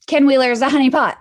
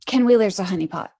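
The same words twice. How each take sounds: First: Loud, fast, high emphatic shout. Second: Said in the usual way. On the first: Real, not acted. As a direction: belt it out, rushing the words. Repeating the claim, building up.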